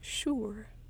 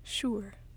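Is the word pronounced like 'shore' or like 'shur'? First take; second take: shur; shur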